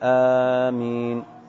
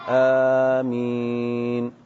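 First: The first vowel is long and the m single. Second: Both the first and second vowels are drawn out. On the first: "بمد الهمزة وتخفيف الميم" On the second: "بمد الهمزة والميم"

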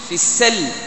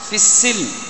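First: The s sound is followed by the vowel a. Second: The s sound is followed by the vowel i. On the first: This is the reading of other reciters. "بفتح السين" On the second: This is the reading of Hafs from Asim. "نقرأها بالكسر"

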